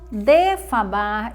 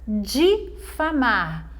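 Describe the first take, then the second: First: The first vowel is an e sound. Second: The first vowel is an i sound. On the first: The speaker calls it wrong. "Algumas pessoas falam defamar e está errado" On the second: The speaker calls it right. "A forma correta é difamar, com a vogal I"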